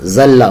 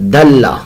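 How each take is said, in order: First: The word begins with a z-like sound. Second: The word begins with a d-like sound. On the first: The speaker calls it wrong. "जल्ला नहीं पढ़ना" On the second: The speaker calls it right. "इसको यूं पढ़ना दल्ला"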